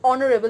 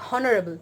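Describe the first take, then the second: First: The word starts with a vowel sound. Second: The word starts with an h sound. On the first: The speaker calls it right. "Here the pronunciation is honorable" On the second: The speaker calls it wrong. "not honorable"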